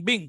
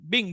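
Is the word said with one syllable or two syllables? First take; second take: one syllable; one syllable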